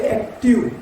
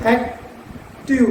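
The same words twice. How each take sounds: First: Said in the usual way. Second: active slowly split into एक and टिव with a small break; pause inside the word. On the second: Shown as a demonstration. Teacher splitting active into syllables for students. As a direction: drag active out, pausing after एक. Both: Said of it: "वहाँ पे हमको हल्का सा रुकना पड़ता है".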